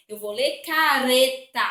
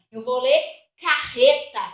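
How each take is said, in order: First: "careta" with a light tapped R. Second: "carreta" with a hard throaty R, louder; "carreta" with a strong guttural RR; "carreta" with the RR pushed out from the throat. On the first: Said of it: "com som tremido". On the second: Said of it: "com som forte saindo da garganta". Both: Shown as a demonstration.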